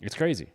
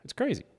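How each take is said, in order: First: Said in the usual way. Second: Crazy said much higher; emphatic high repeat. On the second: Real, not acted. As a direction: push it up on crazy.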